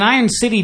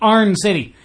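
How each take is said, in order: First: The first word sounds like 'eye-ern'. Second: The first word sounds like 'arn'. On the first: The speaker calls it wrong. "I pronounced it wrong" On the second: The speaker calls it right. "It's Arn City"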